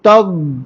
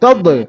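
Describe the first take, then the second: First: The final consonant sound is drawn out and prolonged. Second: The final consonant ends with a short bouncing release. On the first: The speaker calls it right. "തബ്ലീൽ എന്ന റഹാവാണ്, അതിന് ശബ്ദം നീളും" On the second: The speaker calls it wrong. "അല്ലാണ്ട് തബ്ലി തബ് തബ് അങ്ങനെയല്ല"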